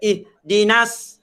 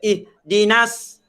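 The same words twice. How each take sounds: First: The s sound is light and thin. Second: The same.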